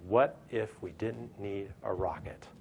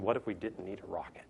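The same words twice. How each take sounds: First: Slow, spelling out every word; slow emphatic question. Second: Whispered, as if sharing a secret; hushed question. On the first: Speaker to audience, founders' question slowed for weight. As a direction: lay the question down slowly. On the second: Speaker to audience, founders' question whispered. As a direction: breathe the question out like a dare. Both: Retold or imitated.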